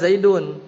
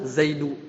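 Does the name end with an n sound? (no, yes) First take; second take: yes; no. First: The name ends with an n sound. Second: The name ends on a vowel, without n. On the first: The speaker calls it wrong. "Itu bacanya nggak boleh Zaidun" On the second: The speaker calls it right. "tapi harus Zaidu"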